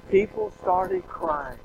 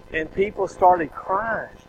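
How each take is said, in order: First: High, slow, voice close to tears; fighting back real tears; slow tearful cry, pitched up high; choked up. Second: Said in the usual way. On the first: Real, not acted. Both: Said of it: "I'm gonna cry telling the story".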